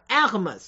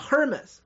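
First: The initial H is silent. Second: The initial H is pronounced. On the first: The speaker calls it right. "法语当中很多H 不发音，所以正确的读音叫Hermes" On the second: The speaker calls it wrong. "不是美国人讲的Hermes"

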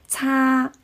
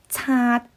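First: The word ends openly without a sudden stop. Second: The word ends with the airflow abruptly cut off. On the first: The speaker calls it wrong. "我听到很多朋友他们把擦发成了擦" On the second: The speaker calls it right. "它收尾的时候呢，它就用它的舌根把气流截住，一下就堵住了"

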